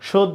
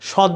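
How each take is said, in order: First: The first vowel is a closed 'o' sound. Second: The first vowel is an open 'aw' sound. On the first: The speaker calls it right. "অয়ের উচ্চারণটা ও এর মতো হবে" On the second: The speaker calls it wrong. "সহ্য না কিন্তু"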